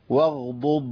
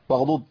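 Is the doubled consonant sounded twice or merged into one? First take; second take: twice; merged. First: Both consonants are clearly sounded, one after another. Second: It is said quickly, with the two consonants merged. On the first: The speaker calls it right. "لازم أقول كده" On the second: The speaker calls it wrong. "ياخدوها بسرعة"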